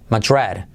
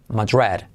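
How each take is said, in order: The two takes are said the same way.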